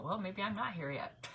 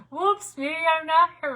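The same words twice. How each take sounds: First: Said in the usual way. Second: Louder, higher, sing-song mock surprise; playful whoops. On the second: Real, not acted. Host joking to viewers about her missing video, playful and louder. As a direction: toss it off like a cheerful oops.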